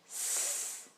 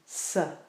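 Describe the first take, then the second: First: The sound is short with no vowel after. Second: The sound ends with an added uh vowel. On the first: The speaker calls it right. "keep each sound short and precise" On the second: The speaker calls it wrong. "add the uh sound on the end"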